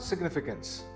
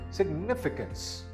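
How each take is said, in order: First: The stress is not on the second syllable. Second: The stress is on the second syllable. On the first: The speaker calls it wrong. "This word is not significance" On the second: The speaker calls it right. "The second syllable is stressed"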